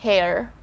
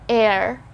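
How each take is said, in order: First: The word starts with an H sound. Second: The word starts with a vowel sound. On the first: The speaker calls it wrong. "and not hair" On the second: The speaker calls it right. "So we just say air"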